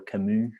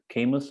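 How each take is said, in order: First: The name is said with French pronunciation. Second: The name is said with English pronunciation.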